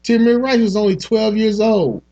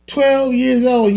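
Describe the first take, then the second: First: Said in the usual way. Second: Twelve drawn out slow and high with a falling end; stress on twelve. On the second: Real, not acted. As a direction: lean hard on Twelve, slowly. Repeating the boy's age.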